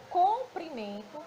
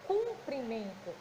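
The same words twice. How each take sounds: First: "comprimento" with an O in the first syllable, "com"; clear O in comprimento. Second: "Cumprimento" with a U in the first syllable, "cum", drawn out; clear U in cumprimento. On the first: Teacher shows pupils the word for length, "comprimento" said with O. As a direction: sound out "comprimento" starting with COM, not CUM. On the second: Teacher shows pupils the word for greeting, "Cumprimento" said slowly with U. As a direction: slowly sound out "Cumprimento" starting with CUM, not COM. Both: Shown as a demonstration. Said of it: "parecidas na escrita e na pronúncia".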